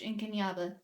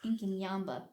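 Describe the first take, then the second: First: The name is said without an m sound. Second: The name is said with an m sound. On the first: The speaker calls it wrong. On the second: The speaker calls it right.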